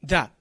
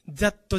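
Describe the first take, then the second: First: That cut short to "za"; dropped final consonant. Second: That said as "za-tto"; katakana final vowel. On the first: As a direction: say "that" with no released t. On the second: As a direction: add a full "to" to "that". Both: Shown as a demonstration. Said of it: "じゃなくて".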